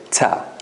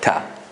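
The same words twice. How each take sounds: First: The t is released with an s-like hiss. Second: The t is released without any hiss.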